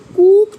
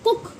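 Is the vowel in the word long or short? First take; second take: long; short. First: The vowel is drawn out long. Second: The vowel is short and clipped. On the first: The speaker calls it wrong. "कूक तो नहीं पढ़ते ना" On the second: The speaker calls it right. "यानी short sound जो होती है"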